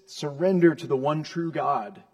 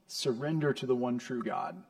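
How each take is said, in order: First: Loud, forceful order to surrender; emphatic, raised-voice command. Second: Said in the usual way. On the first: Acted. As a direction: demand it of the nations at full voice. God commanding the warring nations.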